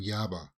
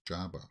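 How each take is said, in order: First: The name begins with a Y sound. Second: The name begins with a J sound. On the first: The speaker calls it right. "they're saying Yaba" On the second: The speaker calls it wrong. "not pronouncing the J as like in Jabba the Hutt"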